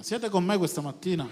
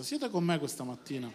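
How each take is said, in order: First: Raised, more forceful question; rousing call to congregation. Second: Said in the usual way. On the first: Real, not acted. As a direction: call out for a livelier amen. Repeats question after few amens.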